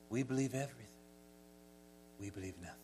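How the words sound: It is said in a wispy, airy voice.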